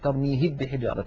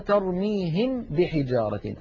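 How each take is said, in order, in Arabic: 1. تندمج الميم اندماجًا كاملًا في الباء التي بعدها. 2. الميم مُظهَرة واضحة دون غنّة طويلة. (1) "هذا هو الإدغام" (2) "ولو أظهرنا لقلنا ترميهم بحجارة، الميم لوحد والباء لوحد من غير غنة طويلة"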